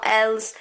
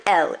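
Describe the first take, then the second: First: "elles" with a Z or S on the end; "elles" said wrongly as "ells"; wrongly sounded S. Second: "elle" ending cleanly on L; "elle" with no plural S heard; silent final S. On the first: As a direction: mistakenly pronounce the S in "elles". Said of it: "it's not". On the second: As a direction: say "elle" as "ell", no S. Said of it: "you don't pronounce them". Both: Shown as a demonstration.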